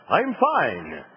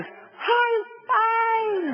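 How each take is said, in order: First: Said in the usual way. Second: "I'm fine" shrieked much higher, cracking with panic; high panicked wail that says the opposite of fine; terrified shriek. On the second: Shown as a demonstration. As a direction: scream "I'm fine" like a man dangling over the void. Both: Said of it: "So what you yell back is".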